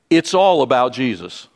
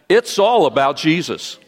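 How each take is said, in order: First: It is said calmly and plainly. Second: It is said with passion and energy.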